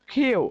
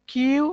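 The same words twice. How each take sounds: First: কিউ said carefully and set apart as the right version; correct pronunciation. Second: কিউ said the usual Bangladeshi way, flat; the everyday কিউ before correcting it; common local pronunciation. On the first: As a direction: give কিউ slowly with a clear glide into the oo. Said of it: "but এটা not কিউ". (সঠিক কিউ উচ্চারণ) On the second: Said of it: "এটাকে আমরা বলে থাকি বাংলাদেশে". (প্রচলিত ভুল কিউ উচ্চারণ) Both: Shown as a demonstration.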